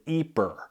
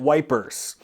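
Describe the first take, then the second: First: The name is said like 'eeper', Flemish style. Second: The name is said like 'wipers', starting with w. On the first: "they pronounce it Ypres, like E E P E R" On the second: "The British, though, they called it wipers"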